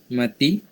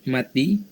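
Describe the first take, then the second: No difference in how they are said.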